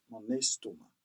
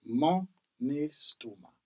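First: Mon estomac, linked as mo-nestomac; French for my stomach. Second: Mon estomac, stress on mon, falling; repeated for the class. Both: Shown as a demonstration. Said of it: "In French".

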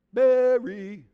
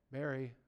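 First: Mary called out higher and louder, falling. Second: Quiet, falling Mary; soft Mary. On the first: Preacher shows Jesus calling Mary by name, calling out loud. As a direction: call Mary out, high and loud. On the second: Preacher demonstrates a gentle way of calling a name, softly. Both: Shown as a demonstration. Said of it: "a special way of saying each one of their names".

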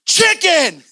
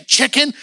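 First: "Chicken" shouted high and loud, falling; blurted shout. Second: "Chicken" high with a questioning rise; incredulous question. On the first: Acts out blurting it at the person. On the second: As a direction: ask "Chicken" as if it were absurd. Imagined asking of the absurd word. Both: Retold or imitated.

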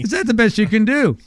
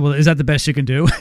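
First: Higher, pressing bargainer's question; emphatic haggling ask. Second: Fast, offhand haggle over the price; quick haggling ask. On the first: Host replaying his haggle to Tom, higher and pressing. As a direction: lean on it, pushing for a better deal. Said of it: "you're still trying to get me". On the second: Host retelling his haggle with Tom, quick and offhand. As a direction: toss it off quickly like a cheeky bargainer. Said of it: "And I said". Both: Retold or imitated.

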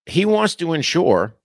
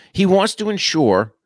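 First: "wants" stretched high and slow; stress on wants. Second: "wants" pitched high, slow and emphatic; stress on wants. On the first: Urging viewers to let it sink in, stressing "wants". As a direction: lean hard on "wants". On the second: Telling viewers to let it sink in, high stressed "wants". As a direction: hammer the word "wants". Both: Shown as a demonstration. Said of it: "and let this sink into you".

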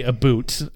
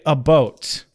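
First: "boot" with a long oo vowel; cartoon Canadian "boot". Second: "boat" with a rounded oh vowel; Canadian "about" attempt. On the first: Host rejects the cartoon version of about, "boot" with long oo. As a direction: caricature "about" pronounced as "a boot". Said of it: "like it's fucking South Park". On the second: Host attempts how Canadians say about, "boat" with rounded oh. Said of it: "I'm not saying it right". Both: Shown as a demonstration.

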